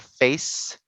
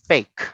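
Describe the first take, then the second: First: The c is said as an s sound. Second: The c is said as a k sound. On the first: The speaker calls it right. "So it's a face" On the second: The speaker calls it wrong. "you don't say fake"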